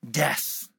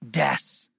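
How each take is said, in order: Both takes have the same delivery.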